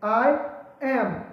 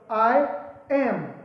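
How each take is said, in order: Both takes have the same delivery.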